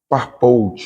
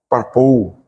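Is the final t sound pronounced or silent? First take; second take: pronounced; silent. First: The final t sound is pronounced. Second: The final t sound is left silent. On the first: The speaker calls it wrong. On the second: The speaker calls it right.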